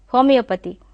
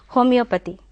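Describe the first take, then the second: Both takes have the same delivery.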